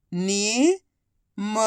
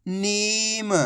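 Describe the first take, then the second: First: नीम split as नी, long pause, म; syllable by syllable. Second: नीम joined as one soft word with long ee; blended word. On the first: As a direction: sound out नीम slowly, नी rising, then म alone. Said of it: "एक अक्षर की पहचान करो, उनका उच्चारण करो". (नीम को अक्षर-अक्षर अलग बोलें) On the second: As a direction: blend नी and म into नीम without a gap. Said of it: "आपस में मिला के पढ़ दो". (नीम को मिलाकर बोलें) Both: Shown as a demonstration.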